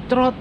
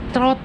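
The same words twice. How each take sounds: The two takes are said the same way.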